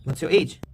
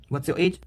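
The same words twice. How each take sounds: The two takes are said the same way.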